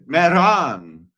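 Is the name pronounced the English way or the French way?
French. The name is said with a French pronunciation. The speaker calls it right. "That's how the French pronounce it"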